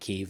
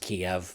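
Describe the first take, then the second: First: The name is said the local Ukrainian way. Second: The name is said the Western English way. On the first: This is how locals say the city's name. "the Ukrainians in Kiev pronounced it Kiev" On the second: This is how outsiders say the city's name. "the Europeans and Americans say it is Kiev"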